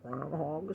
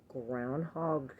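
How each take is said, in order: First: Said in the usual way. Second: GROUNDHOG said weird, drawn out slowly; oddly pronounced. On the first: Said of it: "Do you say it like that?". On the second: Real, not acted. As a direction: stretch out GROUNDHOG so it comes out odd. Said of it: "I said it weird".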